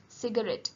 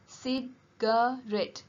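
First: Said in the usual way. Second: "Cigarette" said slowly, each syllable spelled out; a slow, careful "Cigarette" for pupils to write down; slow dictation. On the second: Shown as a demonstration. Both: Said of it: "It has three sounds and three syllables".

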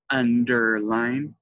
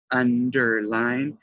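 No difference in how they are said.

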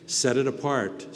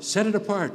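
First: Said in the usual way. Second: "it" hit higher and louder, falling off on "apart"; emphatic repeat with "it" punched; stress on it. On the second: Shown as a demonstration. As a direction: lean into the word it, higher and louder.

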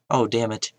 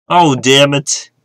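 First: Said in the usual way. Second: Louder, slow, drawn-out curse; frustrated outburst. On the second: Real, not acted. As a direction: let the frustration burst out.

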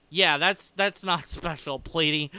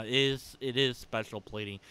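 First: Dry mocking denial, laughing; sarcastic. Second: Said in the usual way. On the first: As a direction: say it with a smirk, clearly not meaning it. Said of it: "that was sarcasm". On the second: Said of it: "that was sarcasm, by the way".

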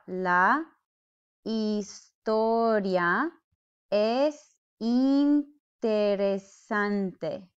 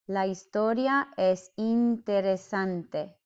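First: Historia es interesante drawn out, very slow; sounded out slowly. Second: Said in the usual way. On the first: Shown as a demonstration. Teacher sounding out the sentence slowly for learners. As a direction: stretch La historia es interesante syllable by syllable. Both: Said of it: "This is how it is sounded out".

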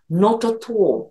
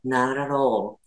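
First: Slow British "Not at all" as "noto to", crisp t's and rounded o; British accent. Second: American "Not at all" as "naralo", soft flapped t's, a bit softer; American accent. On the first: Teacher contrasting American and British English for learners, British accent. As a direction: say "Not at all" slowly like a Brit. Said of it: "イギリス人だと". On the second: Teacher contrasting American and British English for learners, American accent. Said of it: "アメリカ人だと". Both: Shown as a demonstration.

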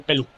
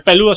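First: "pelú" clipped to two syllables, the final -do dropped; the short form "pelú", ending on the U. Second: "peludo" said in full, all three syllables pe-lu-do; the full word "peludo", not the clipped form. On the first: Streamer correcting a nickname, clipped "pelú". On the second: Streamer correcting a nickname, full "peludo". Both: Shown as a demonstration. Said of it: "porque no tiene tilde en la U".

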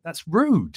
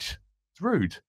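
First: Mock outrage. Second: Mock prissy tone. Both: Shown as a demonstration.

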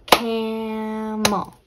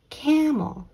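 First: "Camel" stretched into CAAM, MUL; clapped-out syllables. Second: Said in the usual way. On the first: Shown as a demonstration. Teacher clapping out the syllables, "Camel" in two beats. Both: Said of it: "Let's clap out the syllables".

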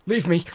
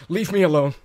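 First: Loud high yell to drive them off; shout. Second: A longer, louder high yell; shout. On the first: Yelling at the attacking birds, loud high shout. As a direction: scream it at the pests. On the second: Still yelling at the attacking birds, louder high shout. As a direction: bellow it as they keep coming. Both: Real, not acted.

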